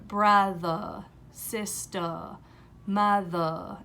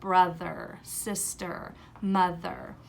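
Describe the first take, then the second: First: The final R sounds are turned into vowels. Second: The final R sounds are said as clear R sounds. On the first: The speaker calls it wrong. "vowelizing the R" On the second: The speaker calls it right. "instead of"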